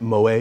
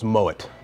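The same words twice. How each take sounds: First: The name is pronounced the French way. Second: The name is pronounced the German way. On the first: The speaker calls it wrong. "try to pronounce it Moet because it's French" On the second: The speaker calls it right. "the name is a German descent, so it's Moet"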